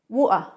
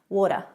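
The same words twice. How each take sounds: First: The middle T is a glottal stop. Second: The middle T sounds soft, like a D. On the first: "a bit of a London accent, you might hear the glottal stop" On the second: "the T is more of a D sound"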